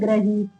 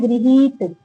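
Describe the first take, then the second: First: The first syllable is said as 'gra'. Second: The first syllable is said as 'gri'. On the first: The speaker calls it wrong. "और लिख देते हैं ग्रहीत" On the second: The speaker calls it right. "हमें लिखना है गृहीत"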